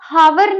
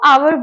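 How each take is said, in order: First: The word starts with an h sound. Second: The word starts with a vowel sound. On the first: The speaker calls it wrong. "हावर नहीं होता" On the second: The speaker calls it right. "उसको आवर बोलते हैं"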